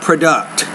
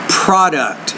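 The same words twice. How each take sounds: First: The stress is on the second syllable. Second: The stress is on the first syllable. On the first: The speaker calls it wrong. "not product" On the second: The speaker calls it right. "So stress is on that first syllable there"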